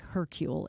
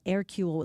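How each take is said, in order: First: The name is read as English spelling suggests. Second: The name is said with French pronunciation.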